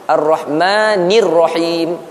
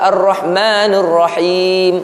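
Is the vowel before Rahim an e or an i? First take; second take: i; e. First: The syllable before Rahim has an i vowel. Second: The syllable before Rahim has an e vowel. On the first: The speaker calls it right. "Jangan baca ne ataupun na" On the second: The speaker calls it wrong. "Ada orang baca Ar-Rahmanir Rahim"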